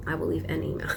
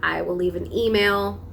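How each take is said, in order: First: Softer muttered repeat; quietly repeated to herself. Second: Said in the usual way. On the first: Shown as a demonstration. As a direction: say it again under your breath.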